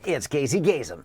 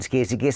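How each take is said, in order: First: It is said in a put-on radio announcer voice. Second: It is said in an ordinary, unperformed voice. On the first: The caller sounds exactly like the famous announcer. "try this. ... You were so Casey Kasem" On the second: The caller does not sound like the famous announcer. "that is the worst impression of Casey Kasem I've ever heard"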